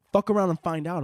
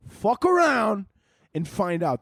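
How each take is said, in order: First: Said in the usual way. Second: Punched threat. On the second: Acted. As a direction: bark the threat like a fight name.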